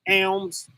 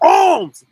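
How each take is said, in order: First: The vowel is a flat 'a' as in 'cat'. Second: The vowel is a broad 'ah' as in 'father'. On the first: "we just go straight to the A sound" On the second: "we get so religious. It's alms. Ah"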